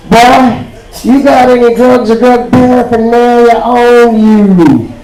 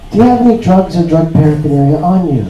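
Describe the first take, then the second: First: Higher, slow, drawn-out officer's demand; burly border guard. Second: Mild, everyday customs officer; customs lady. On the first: Burly guard drilling a traveller with questions, slow and imposing. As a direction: stretch it out like an interrogating guard. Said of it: "big burly guy with an assault rifle". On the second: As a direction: ask it as a casual routine question. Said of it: "And she's like". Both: Acted.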